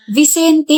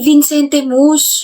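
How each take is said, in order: First: "Vicente" as "vi-SEN-te", no n after Vi; correct pronunciation. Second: Slow, drawn-out "Vincente Mus" with an added n; imitated mispronunciation. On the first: Shown as a demonstration. Correcting a friend on his name, "Vicente" without the extra n. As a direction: say "Vicente" with an open first syllable. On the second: Repeating a friend's wrong name back, slow "Vincente Mus". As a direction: stretch "Vincente Mus", stressing the wrong form. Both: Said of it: "hindi Vincente Mus".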